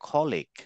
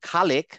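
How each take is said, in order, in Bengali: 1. প্রথম স্বরধ্বনিটি ভারী ও গোলাকার। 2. প্রথম স্বরধ্বনিটি হালকা ও স্পষ্ট। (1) "অ্যারাবিয়ানরা উচ্চারণ করবে খলেক" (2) "আসলে খালেক না"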